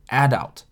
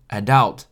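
First: The stress is on the first syllable. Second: The stress is on the second syllable. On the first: "有些人会把重音放在前面" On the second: "有些人呢会念成adult"

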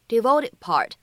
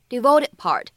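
The two takes are said the same way.

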